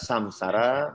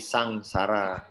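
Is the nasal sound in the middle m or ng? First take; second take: m; ng. First: The nasal in the middle is an m sound. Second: The nasal in the middle is an ng sound. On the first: "bisa dibaca M" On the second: "bisa dibaca eng"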